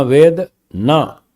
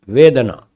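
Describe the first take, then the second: First: वेद ना as two slow words with a clear pause between; split words. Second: वेदना run together as one word, no break; joined word. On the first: Teacher showing word joining, वेद and ना held apart. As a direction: break after वेद, then ना alone. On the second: Teacher showing word joining, वेदना said as one. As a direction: join वेद and ना into वेदना. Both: Shown as a demonstration. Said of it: "शब्दों को कहाँ किसके साथ जोड़ना".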